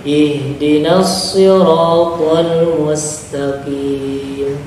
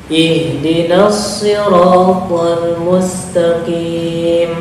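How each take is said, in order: Both takes have the same delivery.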